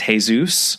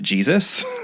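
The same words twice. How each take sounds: First: The name is said with a Spanish-style pronunciation. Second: The name is said with an English-style pronunciation. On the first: It reflects the speaker's regional habit. The speaker calls it wrong. "I, of course, read his name as Jesus" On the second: It is the pronunciation the book intends. The speaker calls it right. "we're actually supposed to just pronounce it Jesus"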